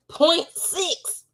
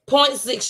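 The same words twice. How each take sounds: First: High, shocked repeat of "Point six"; stunned disbelief at the number; incredulous. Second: Said in the usual way. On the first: Real, not acted.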